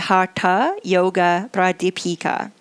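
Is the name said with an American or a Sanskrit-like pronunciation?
Sanskrit-like. The name is said with a Sanskrit-like pronunciation. The speaker calls it right. "more correctly"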